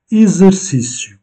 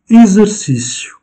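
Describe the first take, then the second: First: Exercicio said high, X like Z; Portuguese X. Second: Exercicio said high, the Portuguese way; Portuguese word. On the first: Teacher explains the Portuguese X, Portuguese pronunciation. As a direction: model exercicio, X like Z. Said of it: "le X se prononce". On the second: Teacher models Portuguese Exercicio, Portuguese pronunciation. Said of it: "modelling word". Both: Shown as a demonstration.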